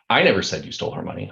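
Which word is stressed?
I. The stress is on "I".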